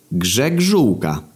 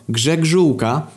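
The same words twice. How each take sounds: First: "Grzegżółka" drawn out slowly, falling at the end; slow repeat. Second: High put-on voice, rising at the end; surname answer. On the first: Acted. Sebastian repeating his surname after "jak?", slow and stretched. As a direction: stretch each syllable of "Grzegżółka" for the listener. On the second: Sebastian giving his surname to police, high rising answer. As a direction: lift "Grzegżółka" up at the end.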